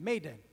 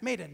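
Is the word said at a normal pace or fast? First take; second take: normal; fast. First: The word is said at a normal pace. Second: The word is said very quickly.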